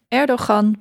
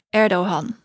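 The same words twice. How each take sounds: First: The middle consonant is said as a g. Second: The vowel is lengthened with a soft h-like sound. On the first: The speaker calls it wrong. "dan spreek je het niet uit als ge" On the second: The speaker calls it right. "dan maak je die klinker langer. En dan klinkt het als een soort h"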